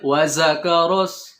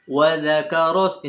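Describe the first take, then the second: First: The consonant is a hissing z sound. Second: The consonant is a soft th-like sound. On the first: The speaker calls it wrong. "Enggak boleh" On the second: The speaker calls it right. "ini baru kembali ke zal"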